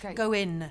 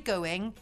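First: The final g sound is dropped. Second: The final g sound is clearly pronounced. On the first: The speaker calls it right. "Don't be go in" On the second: The speaker calls it wrong. "Don't say going"

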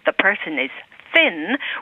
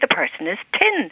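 First: Thin starts with a soft th sound. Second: Thin starts with a hard t sound. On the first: "instead of the person is thin" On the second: "we say the person is tin"

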